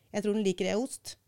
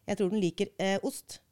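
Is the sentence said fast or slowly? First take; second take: fast; slowly. First: It is said very fast, with a short hesitation. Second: It is said slowly, with a long hesitation.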